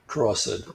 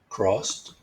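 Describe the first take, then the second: First: The ending sounds like id. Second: The ending sounds like a d.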